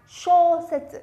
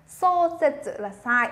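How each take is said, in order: First: Shosetsu with a curled-tongue sho; correct pronunciation. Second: Shosetsu said with a flat plain s, the wrong way; wrong pronunciation. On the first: Teacher demonstrating the correct sho with curled tongue. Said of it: "cong cái lưỡi lên". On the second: Teacher demonstrating the wrong sho sound to students. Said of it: "âm sho này là sai nhá". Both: Shown as a demonstration.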